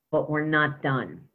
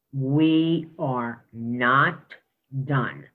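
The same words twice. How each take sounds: First: Said in the usual way. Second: "We are not" drawn out very slowly, a pause, then "done" dropped lower; slow emphatic repeat. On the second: Shown as a demonstration. Superintendent to the board, repeating the point with slow emphasis. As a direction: stretch "We are not", hold, then land "done" low and final.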